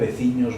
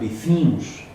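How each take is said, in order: First: The ending has a palatal ñ sound. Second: The ending is pronounced with strong nasalization. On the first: This is the form used closest to Galicia. "máis pa contra Galicia, veciños" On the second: This is the form used in one particular village. "tienen una pronunciación nasal"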